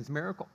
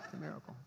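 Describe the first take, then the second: First: Said in the usual way. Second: Much softer, laughing aside; softer laughing repeat. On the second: Real, not acted. Pastor repeating the joke softly under his breath, laughing. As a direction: chuckle it under your breath.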